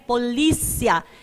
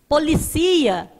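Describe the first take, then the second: First: The stress falls on the syllable li. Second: The stress falls on the syllable ci. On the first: It names the police. "escreva correto" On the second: It is the verb meaning to police or watch over. "sem o acento, fica o verbo policiar"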